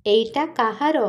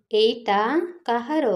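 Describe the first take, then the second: First: Said in the usual way. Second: ଏଇଟା, a clear pause, then କାହାର with a rising question; word by word. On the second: Shown as a demonstration. Teacher splits ଏଇଟା and କାହାର apart for learners. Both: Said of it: "ଏଇଟା / କାହାର? split into words".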